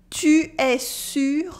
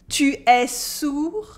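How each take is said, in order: First: "Tu es sûr?" slow, with front rounded u; slow question with a front u in sûr. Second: "Tu es sourd?" slow, with back rounded ou; slow question with a back ou in sourd. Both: Shown as a demonstration. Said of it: "the two words sound almost the same".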